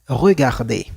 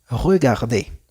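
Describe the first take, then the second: The two takes are said the same way.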